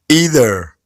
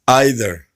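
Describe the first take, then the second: First: It is said with an American accent. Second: It is said with a British accent. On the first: "American versus British English" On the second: "American versus British English"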